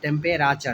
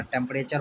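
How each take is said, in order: First: "टेम्परेचर" sounded out as tem-pay-RAA-char; spelling pronunciation. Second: Said in the usual way. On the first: Shown as a demonstration. Teacher sounding out temperature for its spelling, syllable-by-syllable pronunciation. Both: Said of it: "टेम्परेचर होता है".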